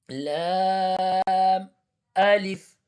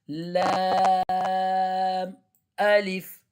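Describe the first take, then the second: No difference in how they are said.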